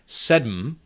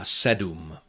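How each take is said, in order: First: The m forms its own syllable, no vowel. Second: A u vowel is inserted before the m. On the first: It sounds very formal. "very formal pronunciation" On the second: It is the everyday way people say it. "normally you would hear people say"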